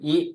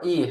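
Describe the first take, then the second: First: The syllable is cut short. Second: The syllable is drawn out long. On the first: It means one. The speaker calls it right. "กลายเป็นอีนะครับ" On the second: It means one hundred million. The speaker calls it wrong. "เราจะพูดคำว่าอีให้สั้นลง"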